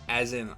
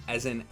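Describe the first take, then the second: The two takes are said the same way.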